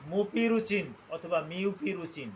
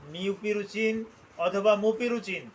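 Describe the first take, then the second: First: মুপিরুচিন অথবা মিউপিরুচিন drawn out syllable by syllable; a doctor modelling the correct name; slow careful pronunciation. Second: মিউপিরুচিন অথবা মুপিরুচিন again, slower, each syllable clear; repeating the drug name for the students; repeated for emphasis. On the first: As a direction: slowly model মুপিরুচিন for the class. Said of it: "আমাকে সঠিক উচ্চারণটা করতে হবে". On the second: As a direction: say মিউপিরুচিন once more so it sticks. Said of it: "আমি আবার বলছি". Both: Shown as a demonstration.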